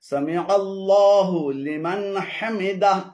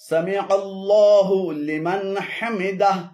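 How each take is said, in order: Both takes have the same delivery.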